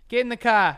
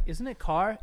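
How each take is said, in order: First: Loud mock Boston bark, higher; hammed-up Boston accent. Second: Said in the usual way. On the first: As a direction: shout it like a Bostonian. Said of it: "thick-ass Boston accent". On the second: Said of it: "Everyone's like".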